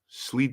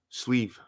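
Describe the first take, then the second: First: The word ends with a d sound. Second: The word ends with a v sound. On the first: The speaker calls it wrong. "What have I been saying? Sleed or something or slid" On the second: The speaker calls it right. "Thank you for that correction"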